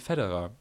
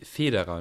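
First: It is said with an American pronunciation. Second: It is said with a German pronunciation. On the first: "in Amerika sagen sie Federer" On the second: "man sagt doch eigentlich Federer"

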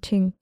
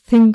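First: The word begins with a plain 't' sound. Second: The word begins with a 'th' sound. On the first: The speaker calls it right. "sondern Ting" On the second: The speaker calls it wrong. "das wird ja auch nicht Thing ausgesprochen eigentlich"

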